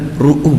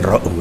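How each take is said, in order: First: The first vowel is pronounced as u. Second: The first vowel is pronounced as a. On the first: The speaker calls it right. "yang benar ru'u" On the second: The speaker calls it wrong. "bukan ra'u"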